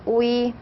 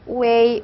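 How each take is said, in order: First: No e sound is heard in the middle. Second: A clear e sound is heard in the middle. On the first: "에를 생략하고 우이라고 발음하셔도 됩니다" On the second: "우를 발음하고 에를 발음하고 이를 발음해서요"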